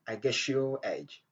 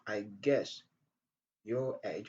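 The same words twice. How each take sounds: First: The s and y merge into a sh-like sound. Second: The s and y sounds stay separate. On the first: "on dit I guess your, I guess your age" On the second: "au lieu de dire I guess your age"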